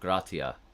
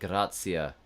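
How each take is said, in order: First: The middle consonant is a hard t. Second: The middle consonant sounds like ts. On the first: This is the classical pronunciation. "instead of a hard T" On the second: This is the ecclesiastical pronunciation. "it's like tsa, like grazia"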